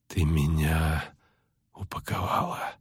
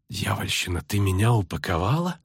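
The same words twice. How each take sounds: First: Slow, low, faint and broken by a pause; dazed, labored half-voice; halting weak speech. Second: Weary disbelief, rising at the end; dawning indignation, still subdued; incredulous question. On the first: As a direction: struggle the words out one by one. Dazed sorceress struggling to speak. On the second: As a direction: run it together as a stunned question. Dazed sorceress now realizes, incredulous. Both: A narrator's reading.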